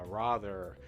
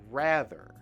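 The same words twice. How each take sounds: First: The first vowel is not the American one. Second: The first vowel is the American one. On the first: The speaker calls it wrong. "some of you might think, oh, it's ra, rather" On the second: The speaker calls it right. "the way in American English to say this word is ra, rather"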